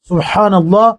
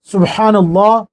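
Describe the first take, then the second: Both takes have the same delivery.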